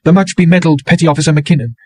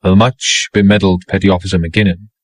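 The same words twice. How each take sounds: First: High, bitter mocking title; bitterly mocking woman. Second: Calm, mild repetition. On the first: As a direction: sneer at his medals. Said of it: "She went on bitterly". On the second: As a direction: answer her gently without rising. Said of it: "he said mildly". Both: A narrator's reading.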